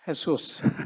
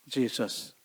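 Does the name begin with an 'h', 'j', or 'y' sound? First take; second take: h; j. First: The name begins with an 'h' sound. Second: The name begins with a 'j' sound. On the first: "스페니시로는" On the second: "영어로는 예수님이 뭐예요?"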